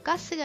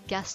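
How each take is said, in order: First: It is said with an added final vowel. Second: It is said with no added final vowel. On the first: The speaker calls it wrong. "가스가 아니라" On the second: The speaker calls it right. "gas라고 하셔야 돼요"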